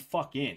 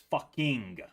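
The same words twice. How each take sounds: First: The final -ing is clipped to a short 'in'. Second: The final -ing is clearly and fully enunciated. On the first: "not even "fucking,"" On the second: "they always make sure to enunciate the ing"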